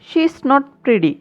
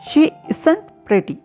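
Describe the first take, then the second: First: The words she is are contracted to she's. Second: The words is not are contracted to isn't.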